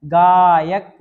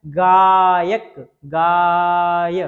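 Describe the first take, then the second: First: गायक said loud with rising end; teacher modelling pronunciation; loud model word. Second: गायक drawn very slowly and loud, गाय held; teacher modelling pronunciation; stretched sound. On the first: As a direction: call out गायक clearly. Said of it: "ये वाला उच्चारण आ रहा है". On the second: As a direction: hold गाय long before the ending. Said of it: "ये उच्चारण निकल रहा है". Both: Shown as a demonstration.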